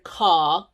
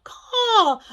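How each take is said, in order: First: Said in the usual way. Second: "Call." yelped much higher and louder, with a laugh; squawked call. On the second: Shown as a demonstration. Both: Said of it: "I asked you to say the word call".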